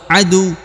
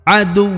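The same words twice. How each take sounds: First: The final w is short with no pressure. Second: The final w is held and pressed slightly. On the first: The speaker calls it wrong. "Tidak dibaca aduwun atau adu, tapi harus ada penekanan sedikit" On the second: The speaker calls it right. "ditahan kemudian dibunyikan ya, atau disukunkan"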